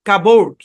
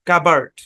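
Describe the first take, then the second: First: The second syllable has a full o vowel. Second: The second syllable has a reduced, weak vowel. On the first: "সমস্যা নাই" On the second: "এখানে সাউন্ডটা হচ্ছে আর্ট"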